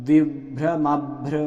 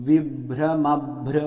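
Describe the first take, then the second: No difference in how they are said.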